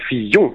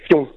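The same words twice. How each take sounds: First: The name is said carefully, every sound kept. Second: The name is rushed, the middle sound slurred away. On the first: It is the proper surname. The speaker calls it right. "But you have to say Fillon" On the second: It means bum. The speaker calls it wrong. "when you say Fillon, then that means bum"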